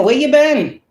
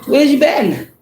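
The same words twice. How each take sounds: First: High, exaggerated nosy asking, half-hearted; mock sudden interest. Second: High, fake-innocent mocking question; mock sudden interest. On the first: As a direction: play the flaky friend pretending to care. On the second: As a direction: imitate the caller who vanished and now returns. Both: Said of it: "mocking returning people".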